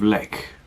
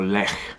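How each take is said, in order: First: The name is said with an English pronunciation. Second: The name is said with a Polish pronunciation.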